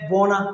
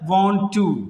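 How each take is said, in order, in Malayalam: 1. രണ്ട് വാക്കുകളും ചേർന്ന് ഒരു ചുരുക്കിയ വാക്കാകുന്നു. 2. രണ്ട് വാക്കുകളും പൂർണ്ണമായും വേറെ വേറെയായി പറയുന്നു.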